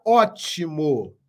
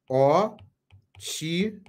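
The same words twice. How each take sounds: First: Said in the usual way. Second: "Ótimo" very slow, as ó... ti... mo; long pauses between the syllables of "Ótimo"; split into syllables. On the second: Shown as a demonstration. Teacher finding the tonic syllable for students, "Ótimo" syllable by syllable. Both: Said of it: "Essa é a separação silábica".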